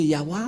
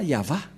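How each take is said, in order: First: The middle consonant is a W sound. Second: The middle consonant is a V sound. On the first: The speaker calls it wrong. "certains aussi disent que, que c'est Yahwa" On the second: The speaker calls it right. "mais pas Yahva"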